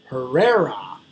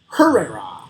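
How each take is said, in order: First: The stress falls on the usual syllable. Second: The stress falls on a different syllable. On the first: The speaker calls it right. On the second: The speaker calls it wrong.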